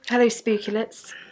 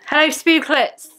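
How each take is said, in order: First: The greeting is said quietly. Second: The greeting is said loudly.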